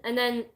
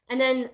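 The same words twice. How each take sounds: Both takes have the same delivery.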